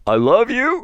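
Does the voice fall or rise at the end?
rise. The voice rises at the end, a question.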